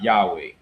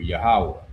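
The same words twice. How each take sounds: First: Yahweh said YAH-wee, ending on a long "ee"; Yahweh mispronounced YAH-wee; wrong pronunciation. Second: Yahweh pronounced yuh-HAH-weh as the proper name; correct pronunciation. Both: Shown as a demonstration. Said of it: "not Yahweh".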